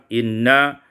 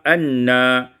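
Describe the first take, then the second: First: The word begins with an i vowel. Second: The word begins with an a vowel.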